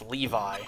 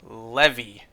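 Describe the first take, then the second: First: The name ends with an 'eye' sound. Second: The name ends with an 'ee' sound. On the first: The speaker calls it right. "No, it's Levi" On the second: The speaker calls it wrong. "what I thought Levi's name was first pronounced like"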